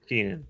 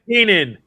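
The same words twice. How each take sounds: First: It is said hesitantly, without confidence. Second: It is said firmly, with confidence.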